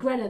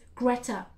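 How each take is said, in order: First: The name is pronounced loosely, with slack articulation. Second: The name is pronounced crisply, with careful articulation. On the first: The speaker calls it wrong. "I've got a lazy tongue" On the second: The speaker calls it right. "They're telling me to pronounce it properly"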